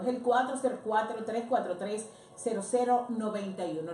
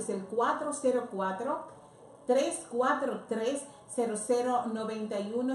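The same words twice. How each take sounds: First: The number is read at normal speed. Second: The number is read more slowly.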